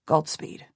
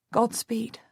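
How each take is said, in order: First: Lower, subdued farewell; a man's brief, restrained goodbye; uncle Jasper. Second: Higher and softer, a hint of a tremble; trembling voice. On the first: Jasper bidding the mother farewell, low and restrained. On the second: Mother saying goodbye to Jasper, a touch trembling. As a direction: hold back tears, barely holding it together. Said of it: "My voice is trembling". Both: A narrator's reading.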